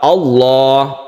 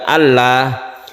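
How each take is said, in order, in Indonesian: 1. Huruf L dibaca tebal. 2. Huruf L dibaca tipis. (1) "menebalkannya seperti itu"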